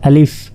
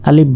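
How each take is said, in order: First: The word ends with an f sound. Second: The word ends with a p-like sound. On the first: The speaker calls it right. "আসলে এটা আলিফ আলিফ" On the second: The speaker calls it wrong. "Bangla প শেষে আলিফ আলিফ বলে"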